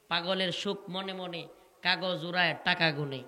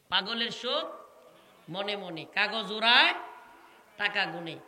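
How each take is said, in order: First: Said in the usual way. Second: পাগলের সুখ, মনে মনে, কাগজ উড়ায়, টাকা গুনে: each phrase split off by a pause, উড়ায় rising and louder; saying broken into phrases. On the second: Shown as a demonstration. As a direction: pause after every phrase, lift উড়ায়. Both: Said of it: "repeats the saying".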